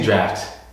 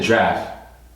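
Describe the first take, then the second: First: The word ends with a clear t sound. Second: The word ends without any t sound. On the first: The speaker calls it wrong. "I didn't say draft" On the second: The speaker calls it right. "I said draft. ... I didn't say a T"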